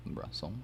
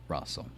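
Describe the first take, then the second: No difference in how they are said.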